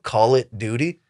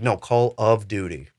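First: "Call it Duty" said with "it" in place of "of", rising like a question; mispronounced title. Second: "Call of Duty" said clearly with "of", falling; correct title. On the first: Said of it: "what is it called". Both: Retold or imitated.

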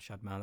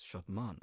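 First: "Shadman" with the English short "a" of "cat"; everyday English "Shadman", both syllables with a front "a"; anglicised name pronunciation. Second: "Shadman" with long open "ah" in both syllables, "Shahd-mahn"; "Shadman" with back vowels, as the family says it; actual family pronunciation. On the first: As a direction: say "Shadman" to rhyme with "bad man". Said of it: "That's normally how I introduce myself". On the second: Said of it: "the way my name is actually pronounced". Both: Shown as a demonstration.

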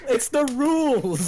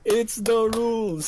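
First: Slow, drawn-out "It's the rules"; insistent. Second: Slow, high singsong "It's the rules"; mock-stern repeat. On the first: Acted. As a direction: lay down the law, slowly and high. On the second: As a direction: tease it out like a strict referee. Repeated, drawn out again.

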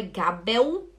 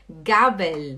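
First: Gabel as "ga-beu", rising; wrong final L. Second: Gabel slowly, with a clear final L; correct final L. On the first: Teacher showing the class the error, L as U. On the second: Teacher giving the word for fork, clear final L. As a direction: close Gabel with tongue tip up on L. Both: Shown as a demonstration. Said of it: "não é Gabel".

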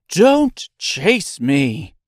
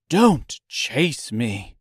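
First: Louder, slow frightened cry; frightened plea. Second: Slow, frightened little voice; beg, scared and small. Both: A narrator's reading. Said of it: "such a frightened little voice".

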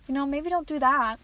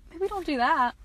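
First: Mock scolding. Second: Mock scolding repeated. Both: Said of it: "I'd probably be like".

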